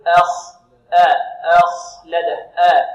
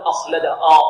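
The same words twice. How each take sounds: First: أخلد with a thin a, then a heavy kha; drawn-out, careful أخلد with a light hamza. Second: أخلد with a heavy, dark first a, like the kha; loud, wrongly thickened آ at the start of أخلد; thickened hamza. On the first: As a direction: slowly split أخ, keeping the آ light and clean. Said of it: "بل نقول". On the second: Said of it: "لا نقول". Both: Shown as a demonstration.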